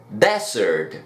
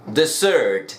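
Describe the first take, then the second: First: Desert with the weight up front, DE-sert, falling low; Desert con acento al inicio; desert stressed on first syllable. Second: Dessert with the weight on the end, de-SSERT; Dessert con acento al final; dessert stressed on second syllable. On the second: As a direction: lean on the last syllable of Dessert. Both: Shown as a demonstration. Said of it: "el acento en cada una de las palabras".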